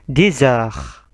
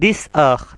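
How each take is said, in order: First: The x is pronounced as a z sound. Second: The x is pronounced as an s sound. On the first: The speaker calls it right. "tapi jadi Z" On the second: The speaker calls it wrong.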